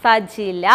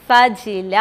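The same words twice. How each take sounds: First: Name said slow and low after claps. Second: Said in the usual way. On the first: Shown as a demonstration. Teacher introducing herself to kids, name said slowly and low. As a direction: spell out the name slowly, falling. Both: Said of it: "teacher പരിചയപ്പെടുത്തട്ടെ".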